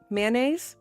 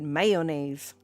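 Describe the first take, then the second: First: The first syllable has no heavy emphasis. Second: The first syllable carries heavy emphasis. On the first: "so there's mayonnaise" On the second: "The heavy emphasis on the mayo part"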